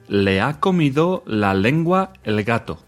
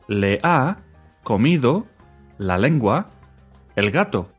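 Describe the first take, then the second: First: The phrase is spoken at normal, quicker speed. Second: The phrase is spoken slowly and deliberately.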